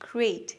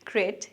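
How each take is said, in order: First: The vowel glides into a short 'ee' sound. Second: The vowel is a plain, unchanging 'e' sound. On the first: The speaker calls it right. "সঠিক উচ্চারণটা গ্রেট। এরপর ছোট্ট করে একটা ই sound আছে" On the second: The speaker calls it wrong. "আমরা অনেকেই বলি গ্রেট"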